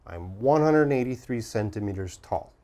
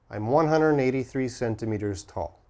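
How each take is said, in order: The two takes are said the same way.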